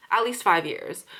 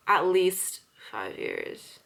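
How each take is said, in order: First: Said in the usual way. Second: Each word drawn out slowly; slow, weighted repeat; slow emphatic. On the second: Real, not acted. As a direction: stretch it out to stress the length. Stressing how long she's worked.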